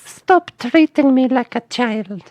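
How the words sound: It is said in a high little-girl voice. "little girl voice"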